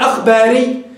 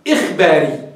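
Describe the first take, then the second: First: The word begins with an 'a' vowel. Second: The word begins with an 'i' vowel. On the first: The word is formed from the plural noun. The speaker calls it wrong. "أخبار بفتح الهمزة" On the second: The word is formed from the verbal noun. The speaker calls it right. "إخباري بكسر الهمزة"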